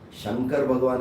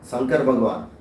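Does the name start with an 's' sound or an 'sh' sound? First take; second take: sh; s. First: The name starts with an 'sh' sound. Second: The name starts with a plain 's' sound. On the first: The speaker calls it right. "Shankar Bhagwan is correct" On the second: The speaker calls it wrong. "if you replace shakara with sakara, sometimes people say Sankar"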